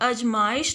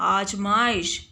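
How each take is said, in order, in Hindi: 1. पहला स्वर छोटा a है। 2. पहला स्वर लंबा aa है। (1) "अजमाइश नहीं होता है बच्चों" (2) "शुद्ध शब्द क्या होता है"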